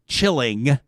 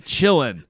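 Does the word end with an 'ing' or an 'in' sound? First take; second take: ing; in. First: The word ends with a full 'ing' sound. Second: The word ends with a plain 'in' sound. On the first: "They don't say chilling" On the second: "They say chillin'. / N apostrophe"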